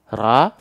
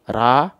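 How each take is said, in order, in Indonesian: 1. Vokalnya bunyi 'a' yang jelas dan tipis. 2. Vokalnya bunyi 'a' yang jelas dan tipis.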